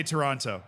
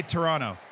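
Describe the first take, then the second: First: Toronto with both Ts sounded; Toronto fully articulated, second T and all; outsider pronunciation. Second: Toronto without the second T; local pronunciation. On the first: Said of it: "You won't say Toronto". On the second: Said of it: "you'll just say Toronto". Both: Shown as a demonstration.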